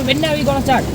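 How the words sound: The question sounds harsh and impatient. The asker cannot wait for it to begin. "എനിക്ക് കേട്ടത് അങ്ങനെയല്ല ... തുടങ്ങി കിട്ടിയാൽ മതിയായിരുന്നു"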